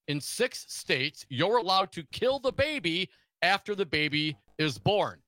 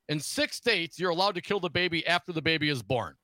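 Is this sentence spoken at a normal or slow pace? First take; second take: slow; normal. First: It is spoken slowly and deliberately. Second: It is spoken at a normal conversational pace.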